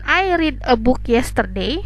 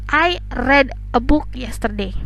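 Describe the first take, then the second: First: Read has its unchanged present-tense pronunciation. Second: Read has its changed past-tense pronunciation. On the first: The speaker calls it wrong. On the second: The speaker calls it right. "pada saat pronunciation kita ubah menjadi read"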